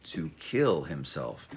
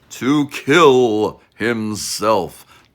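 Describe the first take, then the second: First: Said in the usual way. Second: Very loud, slow, hammed-up ominous boom; over-the-top doom voice, dragged out slowly; mock dramatic. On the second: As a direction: boom it out like a cheesy movie trailer. Mock dramatic repeat of the phrase.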